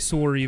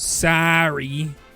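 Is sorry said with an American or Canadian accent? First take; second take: Canadian; American. First: The first vowel sounds like the vowel in sore. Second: The first vowel sounds like the vowel in car. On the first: "the way that we say sorry" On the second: "The A sorry that is is so common in the States"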